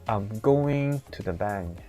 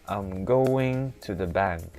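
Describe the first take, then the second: Both takes have the same delivery.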